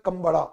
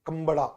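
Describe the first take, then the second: The two takes are said the same way.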